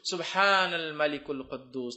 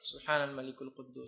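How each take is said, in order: First: It is said loudly. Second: It is said quietly.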